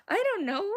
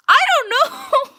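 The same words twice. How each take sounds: First: High, plaintive near-cry; helpless whine. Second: Very high, loud, stretched-out yell; exasperated shout. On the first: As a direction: whimper it after the outburst. Repeats helplessly after the shout. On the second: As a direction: wail it at full voice. Panics over inches and centimeters question. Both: Real, not acted.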